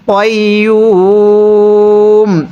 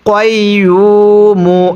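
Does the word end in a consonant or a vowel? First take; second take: consonant; vowel. First: The word ends on a consonant, vowel drawn out. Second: The word ends with a short final vowel. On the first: The reader stops at this word. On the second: The reading continues without stopping.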